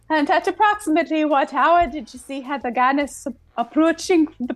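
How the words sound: It is read in a put-on Scottish-sounding accent.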